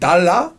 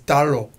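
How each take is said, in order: First: The final vowel is an open 'ah' sound. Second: The final vowel is a rounder 'uh' sound. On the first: The speaker calls it wrong. "you would think it would be like 달라, but it's not" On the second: The speaker calls it right. "It's 달러"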